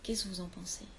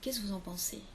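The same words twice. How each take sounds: The two takes are said the same way.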